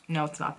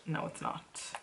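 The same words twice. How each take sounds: First: Said in the usual way. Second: Whispered retort under the breath; hushed, voiceless denial. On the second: Real, not acted. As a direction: whisper it back to yourself.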